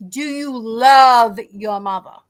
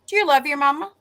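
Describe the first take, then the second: First: "love" drawn out long and loud; slow it right down and lean hard on "love"; emphatic repeat. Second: Said in the usual way. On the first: Retold or imitated. Pressing the funeral home man, emphatic stress on "love". Repeats question pointedly after his answer.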